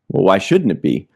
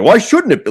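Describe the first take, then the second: First: It is said in a casual, mild tone. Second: It is said in a defensive, hostile tone.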